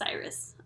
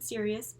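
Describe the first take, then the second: First: The name is said like 'Cyrus'. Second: The name is said like 'Sirius'. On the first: The speaker calls it right. "it's pronounced Cyrus" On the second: The speaker calls it wrong. "sorry, I've been saying Sirius"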